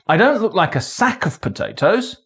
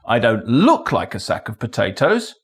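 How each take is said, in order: First: The stress falls on the word sack. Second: The stress falls on the word look. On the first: It looks like another kind of container. "I look like another container of potatoes, but not a sack" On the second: Maybe it is one rather than looking like one. "Maybe I am a sack of potatoes"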